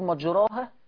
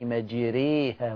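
First: The vowel after r is a plain open a. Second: The vowel after r is tilted toward e. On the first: The speaker calls it wrong. "لو كنا بنقول مجراها يبقى بنقرا غلط" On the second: The speaker calls it right. "أدينا عملنا لهجة الإمالة أهي"

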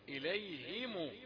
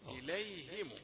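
First: The h is followed by an i vowel. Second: The h is followed by an i vowel.

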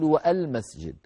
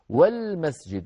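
First: A glottal stop is pronounced before the article. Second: The article joins straight on without a glottal stop. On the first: The speaker calls it wrong. "ولا أقول والمسجد" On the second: The speaker calls it right. "في وسط الكلام تسقط"

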